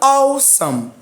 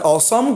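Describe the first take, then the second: First: The stress is on the first syllable. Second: The stress is on the second syllable. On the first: The speaker calls it right. "Our God is an awesome" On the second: The speaker calls it wrong. "You cannot say our God is an awesome God, no"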